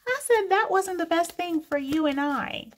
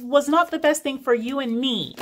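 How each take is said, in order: First: Higher mock-posh "for you and I" with a laugh; mock pretentious speaker. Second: Firm "not", falling to "you and me"; correction. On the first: Mocking a viewer's grammar, higher and laughing. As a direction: parody the fancy mistake, laughing. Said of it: "mocking wrong grammar". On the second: Shown as a demonstration. Correcting the grammar for viewers, firm. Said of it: "No, it was".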